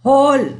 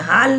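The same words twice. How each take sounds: First: हॉल with a rounded aw between aa and o; correct rounded aw. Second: हाल with a plain open aa, the sound to avoid; wrong plain aa. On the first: Teacher to students, showing the correct हॉल with rounded aw. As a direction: say हॉल with the half-moon aw, as the right version. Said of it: "देखो आ की मात्रा सिर्फ नहीं है". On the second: Teacher to students, showing the wrong हाल with plain aa. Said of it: "हाल नहीं है". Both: Shown as a demonstration.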